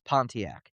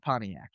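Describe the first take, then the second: First: The T sound in the middle is pronounced. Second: The T sound in the middle is dropped. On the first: This is how outsiders say the name. "nobody says Pontiac" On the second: This is how local people say the name. "They get rid of the T"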